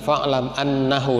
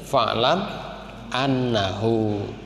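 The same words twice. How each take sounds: First: The final hu vowel is short. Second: The final hu vowel is long. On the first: The speaker calls it wrong. "jadi bukan fa'lam annahu la ilaha illallah, bukan" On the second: The speaker calls it right. "Jadi harusnya fa'lam annahu"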